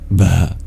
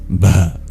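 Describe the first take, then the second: First: The b is breathy, with air after it. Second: The same.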